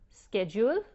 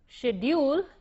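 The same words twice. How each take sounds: First: It is said with an American pronunciation. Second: It is said with a British pronunciation. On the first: "is what they say in the United States" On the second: "is what they say probably in England"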